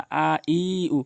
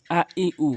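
First: আ ই উ with each vowel stretched long; drawn-out vowels. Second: আ ই উ as three quick, short vowels. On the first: Teacher warning learners against stretching vowels, drawn out. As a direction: drag out আ, ই, উ as the mistake. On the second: Teacher showing learners short Quranic vowels, short and quick. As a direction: say আ, ই, উ briskly without stretching any. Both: Shown as a demonstration. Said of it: "কখনোই টেনে পড়বেন না".

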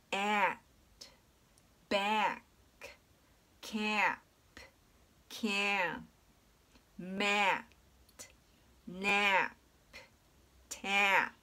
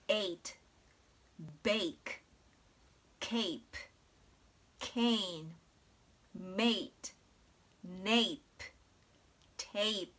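First: "at" to "tap" with an open, jaw-dropped short a, word by word; short A vowel. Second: "ate" to "tape" with a gliding "ei" vowel, word by word; long A vowel. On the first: Teacher modelling words without magic E like "cap", open short-a vowel. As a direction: say the "a" in at, back, cap midway between "ah" and "eh". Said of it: "音読みの方". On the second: Teacher modelling magic E words like "cape", long A as "ei". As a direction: say the "a" in ate, bake, cape as the letter name "ay". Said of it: "アルファベットの読み方で発音される". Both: Shown as a demonstration.

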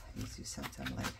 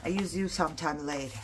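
First: Much lower, fast and soft; low quick mutter. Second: Said in the usual way. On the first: Pretend. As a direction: mutter it quickly under your breath. Repeats the promise to the paper.

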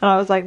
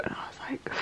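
First: Said in the usual way. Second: Unvoiced whisper aside. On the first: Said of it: "repeated line". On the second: Real, not acted. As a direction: whisper it conspiratorially.

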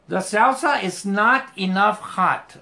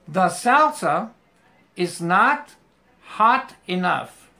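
First: Said in the usual way. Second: The salsa is not hot enough in slow separate chunks; slow, word by word. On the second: Shown as a demonstration. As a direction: break it into pieces for the class. (despacio, palabra por palabra) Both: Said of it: "vas a poner hot primero y después enough".

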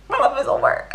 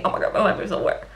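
First: High, hammed-up wail; overdramatic mock despair. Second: Fast, throwaway retelling of a lament; hurried, understated mock despair; quick imitated lament. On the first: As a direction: exaggerate the character's despair for laughs. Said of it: "she didn't say it like that". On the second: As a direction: rattle off the character's complaint. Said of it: "situationship is essentially saying".

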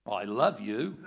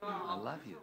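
First: Flat, blunt "I love you" with a rising end; unromantic love line. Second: Softer, gentle "I love you"; mean it, say it softly; tender. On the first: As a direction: toss it off with no tenderness. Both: Shown as a demonstration. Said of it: "it's gotta be the tone of voice".

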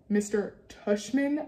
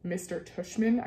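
First: "Tushman" drawn out slowly as a question; slow, incredulous "Tushman?"; disbelieving repeat. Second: Said in the usual way. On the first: A narrator's reading. Repeats the odd name in disbelief.

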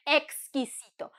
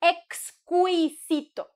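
First: Exquisito as ex-ki-si-to; silent U. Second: Exquisito drawn out as ex-KWI-si-to; slow exquisito, mistaken U sounded; wrong, U pronounced. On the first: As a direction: say exquisito with "ki", no glide. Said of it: "Just remember not to say". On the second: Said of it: "remember not to say exquisito". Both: Shown as a demonstration.

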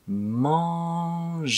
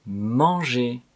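First: Manger drawn out, the nasal held long; slow demo of Manger. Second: Said in the usual way. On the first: Shown as a demonstration. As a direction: stretch Manger slowly. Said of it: "とってもとってもゆっくり". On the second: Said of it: "一回目は普通の速さで".

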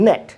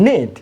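First: নেট with short "eh"; short E word. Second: নিট with long "ee"; long E word. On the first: Teacher recalling the contrast, short-vowel নেট. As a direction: say নেট as English "net". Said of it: "short sound হচ্ছে এ". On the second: Teacher showing adjacent vowels, long-vowel নিট. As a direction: say নিট as "neet", a silent. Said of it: "long sound বা alphabet sound". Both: Shown as a demonstration.

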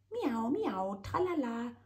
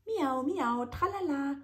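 First: High singsong teasing meow. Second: High, loud mocking singsong; mock the kitten's singsong back; mocking chef. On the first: A narrator's reading. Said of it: "stichelt der Winzling". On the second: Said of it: "schimpft der Chefkoch".

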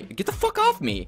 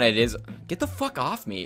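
First: Much higher, a frantic squeal; panicked shriek. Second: Said in the usual way. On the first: Real, not acted. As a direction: shriek it as an enemy jumps you. Repeats it, far higher.

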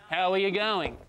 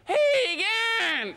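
First: Full Aussie greeting, all syllables; Australian accent. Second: Clipped bogan greeting. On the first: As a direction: say every syllable, Melbourne style. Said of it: "the less syllables people use". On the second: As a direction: squeeze it into two quick syllables. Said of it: "people go". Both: Retold or imitated.

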